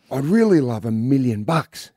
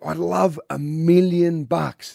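First: Said in the usual way. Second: Stretched out slowly, higher pitch; repeating for the hard of hearing. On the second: Acted. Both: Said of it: "What was that?".

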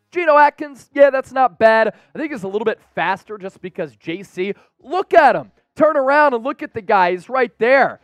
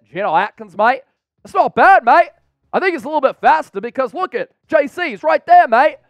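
First: Animated quote. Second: High, loud, hammed-up Australian accent; badly faked Aussie teammate voice, punching each "mate". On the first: Retold or imitated. Reads teammate's quote before accent take. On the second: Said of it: "in an Australian accent".

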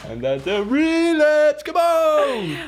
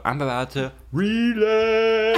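First: High-pitched mock plea; squeaky whine. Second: Higher, slow, put-on voice for a joke threat; half-joking slow high drawl; mock ominous. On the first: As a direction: whine it like a bratty kid begging. Repeats the joke, cranking it up. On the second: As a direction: drag the line out in a silly ominous voice. Joking about relapsing in Mexico.

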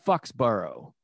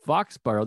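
First: First syllable of Foxborough said like "fucks"; mispronounced Foxborough. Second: First syllable of Foxborough said like "fox"; correct Foxborough. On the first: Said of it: "to slip in fuck". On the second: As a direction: say Foxborough as "FAHKS-burrow", open vowel. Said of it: "They sound similar". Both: Retold or imitated.

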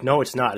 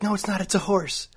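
First: Said in the usual way. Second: High-pitched mocking Allie; Allie, stubborn. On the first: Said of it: "I'm like". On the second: Girlfriend stubbornly insisting it's a horse, high mock voice. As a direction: squeak the denial back at him. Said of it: "She's like".

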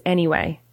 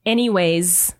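First: "anyway" lower, ending on way; no final S. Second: "Anyways" ending in a Z sound; final S added. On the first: Correcting what is not a word, no final S. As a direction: leave the S off "anyway". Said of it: "It's anyway". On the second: Explaining what is not a word, final S added. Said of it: "is not a word". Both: Shown as a demonstration.

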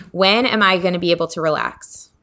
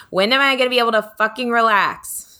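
First: Said in the usual way. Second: Higher, exasperated burst; frustrated outburst. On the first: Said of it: "it's like, fucking". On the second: Shown as a demonstration. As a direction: let the frustration out on fucking. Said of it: "because we're on the middle finger, so it's like, fucking".

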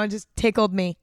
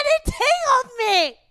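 First: Said in the usual way. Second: Very high, drawn-out squeal; laughing till crying. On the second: Real, not acted. Podcaster confessing her embarrassing line, laughing till crying. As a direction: squeal it out, helpless with real tearful laughter. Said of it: "oh my God, I'm crying".

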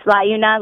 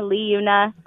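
First: Liuna said as LIE-oo-na; either pronunciation accepted. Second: Liuna said as LEE-oo-na; either pronunciation accepted. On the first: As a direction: start Liuna like the word "lie". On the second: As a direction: start Liuna with a long "ee" after the L. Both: Shown as a demonstration. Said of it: "however you wanna say it".

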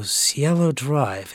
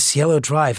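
First: Slow, drawn-out puzzled echo of the street name; slow puzzled repeat. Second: Said in the usual way. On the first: Retold or imitated. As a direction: repeat the name slowly, not quite placing it. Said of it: "at the time it didn't register". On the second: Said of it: "and he says".

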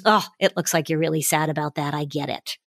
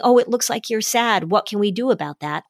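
First: Put-on softer and lower, empathic to a sad child; gentle acknowledgment. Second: Said in the usual way. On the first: Shown as a demonstration. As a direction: ease into it softly, validating. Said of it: "Or just acknowledging". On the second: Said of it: "Instead of saying".

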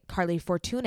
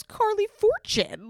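First: Fortune said as "for-too-NAY"; accented final E. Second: Said in the usual way. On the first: Retold or imitated. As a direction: say Fortune in three syllables, ending in "nay". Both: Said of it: "I don't see a accent at the".

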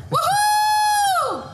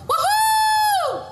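Both takes have the same delivery.

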